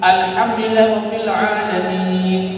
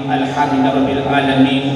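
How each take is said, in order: First: It is recited slowly, with long vowels held. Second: It is recited fast, with long vowels cut short. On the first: The speaker calls it right. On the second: The speaker calls it wrong.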